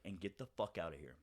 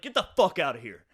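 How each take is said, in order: First: Low, soft, controlled dismissal; quiet, cold retold order; very calm sociopath. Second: Loud retold blow-up, punched on FUCK; loud, forceful dismissal; angry outburst. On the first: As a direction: drop it calmly, like a sociopath. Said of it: "very calmly, like, sociopath". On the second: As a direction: throw him out at full volume. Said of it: "finger right in the face".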